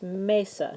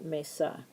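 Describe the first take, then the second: First: The stress is on the first syllable. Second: The stress is on the second syllable. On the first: The speaker calls it right. "So it's mesa" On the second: The speaker calls it wrong. "not mesa"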